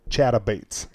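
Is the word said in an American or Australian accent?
American. It is said in a plain American accent.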